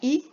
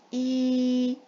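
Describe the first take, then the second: First: The vowel is short. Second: The vowel is held long. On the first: "al-kasra et cela donne le son I" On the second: "le son I mais prolongé"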